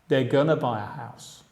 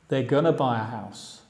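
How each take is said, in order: First: Going to is reduced to a short gonna. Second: Going to is reduced to a short gonna.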